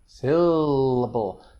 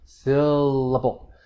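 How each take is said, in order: No difference in how they are said.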